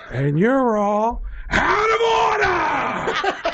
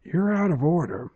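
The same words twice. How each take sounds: First: Very slow build into a high, strained shout; Al Pacino. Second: Restrained opening of a movie-star courtroom tirade; Al Pacino. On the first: Actor raging at broken washers, drawn-out screamed climax. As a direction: stretch it out and explode into a hammy scream. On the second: Actor scolding broken washers, held-back tirade. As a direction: start the famous tirade held back, at speaking level. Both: Acted. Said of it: "as Al Pacino in the middle".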